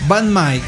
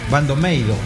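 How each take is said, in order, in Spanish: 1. El nombre se dice como dos sílabas de estilo inglés. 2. El nombre se dice con sílabas japonesas, bando-meido.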